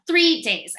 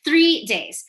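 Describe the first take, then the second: First: "three" punched higher and louder; stress on three. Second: "Three" hit higher and louder, falling; stress on Three. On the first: Nervous man stressing to his date: "three" hit hard. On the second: Nervous man stressing to his date: "Three" hit hard. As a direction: hammer the word "Three". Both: Shown as a demonstration. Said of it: "I really wanna emphasize that".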